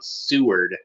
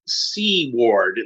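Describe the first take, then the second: First: The name rhymes with sewer plus a final d. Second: The name sounds like the two words sea ward. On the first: The speaker calls it wrong. "keeps coming out like like rhyme like sewer, but with a D at the end of it" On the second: The speaker calls it right. "That's how you're supposed to say it"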